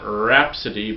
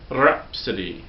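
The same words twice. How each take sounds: First: The R is made without a trill. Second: The R is made with a trill. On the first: The speaker calls it wrong. "not rhapsody" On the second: The speaker calls it right. "that trilled R"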